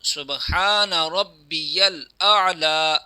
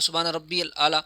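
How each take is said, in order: First: The middle word is said in full as rabbiyal. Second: The middle word is shortened to rabbil. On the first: The speaker calls it right. "ये दुरुस्त तलफ़ुज़ है" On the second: The speaker calls it wrong. "कुछ लोग ऐसे करते हैं ... ये भी गलत है"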